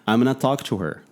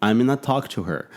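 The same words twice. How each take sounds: First: 'Going to' is reduced to 'gonna'. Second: The same.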